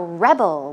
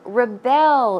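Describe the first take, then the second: First: The stress is on the first syllable. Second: The stress is on the second syllable. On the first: It is a noun meaning a person who resists control. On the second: It is a verb meaning to resist control.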